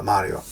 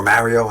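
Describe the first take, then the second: First: Mario said with a broad "ah", MAH-ree-oh; Mario as MAH-ree-oh, his own habit; my usual Mario. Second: Mario with the vowel of "marry"; Mario said as MARE-ee-oh; other Mario. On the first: Reviewer says the name the way he always has, MAH-ree-oh. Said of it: "I kind of always said". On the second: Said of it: "as like to, they like to say". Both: Shown as a demonstration.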